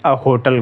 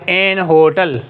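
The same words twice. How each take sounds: First: "अ hotel" with a bare schwa article; common article usage. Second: "एन hotel" with an N before hotel; native-speaker article usage. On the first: Teacher giving the commoner form, "अ" before hotel. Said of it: "more common क्या करते हैं?". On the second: Teacher showing English speakers' usage, "एन" before hotel. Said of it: "एन hotel अक्सर अंग्रेज़ इस्तेमाल कर सकते हैं". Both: Shown as a demonstration.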